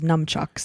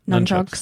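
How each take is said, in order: First: The first syllable ends with an M sound. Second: The first syllable ends with an N sound. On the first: "I always thought it was numchucks" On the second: "so just say none"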